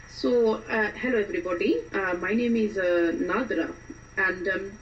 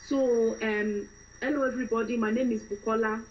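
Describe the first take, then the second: First: Indian-accented self-introduction. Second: Fresh-from-Nigeria woman introducing herself; Nigerian accent. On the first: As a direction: greet everyone in an Indian accent. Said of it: "going to do an Indian accent". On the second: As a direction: greet everyone in a Nigerian accent. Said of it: "start off with a fresh Nigerian woman". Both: Shown as a demonstration.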